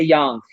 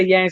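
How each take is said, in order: First: Yang said with an open "ah", like "yahng"; yang said as yong. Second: Yang said with the A of "hang"; yang with flat A. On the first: Giving own way of saying it, "yang" as "yahng". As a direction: say "yang" to rhyme with "sung" or "long". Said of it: "I say yang". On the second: Telling the group how some people say it, "yang" as in "hang". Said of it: "Some people say yang". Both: Shown as a demonstration.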